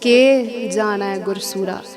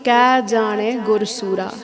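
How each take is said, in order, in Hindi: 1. पहला शब्द 'ke' की तरह बोला गया है। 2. पहला शब्द 'kya' की तरह बोला गया है। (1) "What the Gursikh said was" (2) "The Pangati was"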